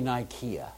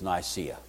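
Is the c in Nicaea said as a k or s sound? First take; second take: k sound; s sound. First: The c is said as a hard k sound. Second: The c is said as a soft s sound. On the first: The speaker calls it right. "we never say Nikea" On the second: The speaker calls it wrong. "Then it went soft on us"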